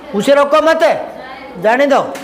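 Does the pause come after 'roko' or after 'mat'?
after mat. The pause comes right after 'mat'.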